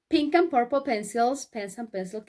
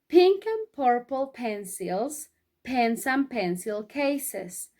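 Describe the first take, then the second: First: It is said at a very quick pace. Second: It is said at a slow, careful pace. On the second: "decirlo todo junto de corrido, despacito"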